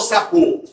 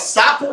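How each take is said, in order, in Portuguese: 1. A tônica está na última sílaba. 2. A tônica está na primeira sílaba.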